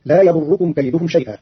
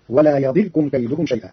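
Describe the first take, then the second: First: Said in the usual way. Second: "يضركم" as yadirkum, i on the dad, silent ra; يضركم بكسر الضاد. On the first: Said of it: "قرأ قالون كلمة". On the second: Shown as a demonstration. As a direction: keep the ra of "يضركم" without a vowel. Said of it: "بكسر الضاد وجزم الراء".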